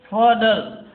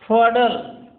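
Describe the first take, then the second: No difference in how they are said.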